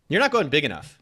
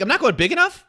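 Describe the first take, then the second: First: Said in the usual way. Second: Much higher and louder, rising in mock disbelief; hammed-up shocked repeat, rising at the end; incredulous echo. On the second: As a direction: throw the words back, stunned.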